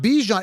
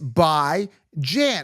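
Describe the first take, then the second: First: The first syllable sounds like 'bee'. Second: The first syllable sounds like 'by'. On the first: The speaker calls it wrong. "It's not Bijan. It's by" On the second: The speaker calls it right. "It's by Jan"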